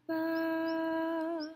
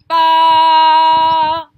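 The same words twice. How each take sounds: First: The syllable is said softly and gently. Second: The syllable is said loudly and forcefully. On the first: "la douceur" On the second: "la force"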